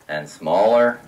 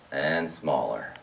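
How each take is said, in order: First: Low, measured step down on "smaller"; voice shrinking. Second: Very low, soft, drawn-out "smaller"; deep drop and hush, stretched out; voice shrinking further. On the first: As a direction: voice steps down lower on "smaller". Pipes narrowing step by step, voice shrinks. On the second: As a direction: sink "smaller" slowly down to a tiny low sound. Last step of pipes getting smaller. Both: Shown as a demonstration.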